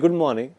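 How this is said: It is said in a happy tone. "Tonality change हो जाता है इनटू हैप्पी"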